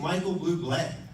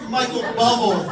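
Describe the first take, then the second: First: The surname sounds like boo-blay. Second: The surname sounds like bubble.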